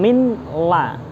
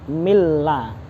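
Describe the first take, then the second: First: The n is pronounced separately before the l. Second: The n merges fully into the following l. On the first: The speaker calls it wrong. "bukan min la" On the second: The speaker calls it right. "Nunnya dimasukkan ke dalam lam, milla"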